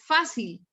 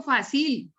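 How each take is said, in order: First: "fácil" stressed on FÁ, FÁ-sil; stress on first syllable. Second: "fácil" wrongly stressed on the end, fa-SIL; wrong final stress. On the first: Teacher corrects for students, "fácil" stressed as FÁ-sil. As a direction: hit the first syllable of "fácil" and let it fall. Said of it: "digo fácil". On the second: Teacher shows students how not to say it, "fácil" stressed as fa-SIL. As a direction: push the stress onto the last syllable of "fácil". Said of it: "Yo no digo fácil". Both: Shown as a demonstration.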